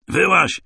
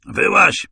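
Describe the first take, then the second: First: Sharp high barked command; shout. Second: Very high, loud call. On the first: Masai shouting at the hiding narrator, high shout. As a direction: yell it at the hidden man. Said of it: "krzyknął w Swahili Masaj". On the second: Masai calling to the hiding narrator again, high shout. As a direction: yell it out across the field. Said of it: "tym razem wołał po angielsku". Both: A narrator's reading.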